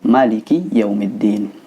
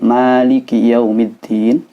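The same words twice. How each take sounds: First: The first vowel of Maliki is kept short. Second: The first vowel of Maliki is drawn out long. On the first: This follows the Warsh reading. "bacaan pendek ala riwayat Imam Warish" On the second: This follows the Hafs reading. "bacaan Imam Hafiz yang panjang"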